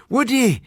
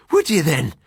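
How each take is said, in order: First: Cry out. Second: Lightly voiced Irish doctor, higher; a hint of Irish brogue, teasing the friend; Irish accent. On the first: Acted. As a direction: bark it at the frantic friend, Irish. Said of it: "he cried". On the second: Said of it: "my Irish doctor friend".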